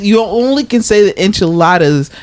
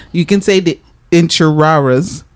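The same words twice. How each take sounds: First: Said in the usual way. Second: "enchiladas" said with r's in place of l's; mock accented pronunciation. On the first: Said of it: "and that's not racist". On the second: Shown as a demonstration. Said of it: "I would like to imitate that".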